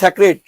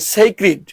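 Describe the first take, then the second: First: The first syllable sounds like 'sack'. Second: The first syllable sounds like 'say'. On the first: This is how it is commonly said. The speaker calls it wrong. "যেটা আমরা বলি স্যাক্রেড" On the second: This is how the dictionary gives it. The speaker calls it right. "ওটা হবে সেইক্রিড"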